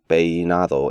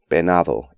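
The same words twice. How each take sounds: First: The E is overstressed, pulling the diphthong apart. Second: The I sound of the diphthong is dropped. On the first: "emphasize the E" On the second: "eliminate the I sound"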